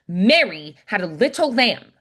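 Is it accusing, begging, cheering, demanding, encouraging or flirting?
demanding. It sounds demanding.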